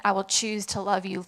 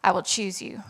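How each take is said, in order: First: Said in the usual way. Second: Breathy whisper of a song line; whispered lyric. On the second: Acted. Woman recalling her song lyric to the church, whispered. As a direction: let the lyric slip out as a whisper.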